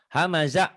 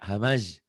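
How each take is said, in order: First: The word ends with a final vowel. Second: The final vowel is dropped at the stop.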